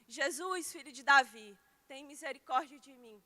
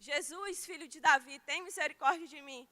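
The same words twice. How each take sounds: Both takes have the same delivery.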